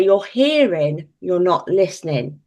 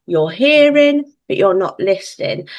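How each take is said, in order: First: Hearing slowed, said at normal pitch; even statement of the rule; parent's rule. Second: Stressed hearing, drawn out; stern parent. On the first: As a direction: lay down the rule evenly. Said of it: "and I say". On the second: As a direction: stretch out hearing like a parent making a point. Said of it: "And I go". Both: Retold or imitated.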